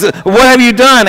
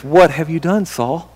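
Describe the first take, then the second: First: Samuel, stern rebuke. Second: Softly asked, fading almost to nothing; a hushed, grave question to a guilty king; Samuel, quiet rebuke. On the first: Prophet Samuel demanding an answer from disobedient Saul. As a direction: lean into it like a shocked prophet. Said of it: "asked Samuel". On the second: Prophet Samuel quietly confronting Saul over the offerings. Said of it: "And Samuel says". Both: Retold or imitated.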